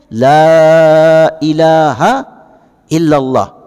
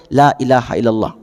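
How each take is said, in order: First: The first vowel is drawn out long. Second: The first vowel is clipped short. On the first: It means no god but God. The speaker calls it right. "Bacanya panjang ya Bapak Ibu" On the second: It means truly instead of no. The speaker calls it wrong. "sering juga saya dengar bacanya pendek"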